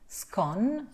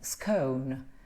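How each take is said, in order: First: The vowel is a short, open O. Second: The vowel is a long, gliding O. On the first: "this is the symbol for the open O" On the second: "scone with a schwa O N"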